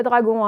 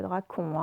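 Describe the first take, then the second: First: Said in the usual way. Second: "dragon" said with a hard K, as drakon; mispronounced with K. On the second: Shown as a demonstration. Teacher warns pupils it is not drakon, "dragon" wrongly said with K. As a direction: swap the G in "dragon" for a K sound. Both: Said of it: "ça n'est pas gueux, c'est que".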